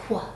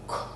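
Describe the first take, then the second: First: The sound is said with voicing. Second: The sound is said without voicing. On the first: "And if it's voiced" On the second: "If it is being said in an unvoiced way"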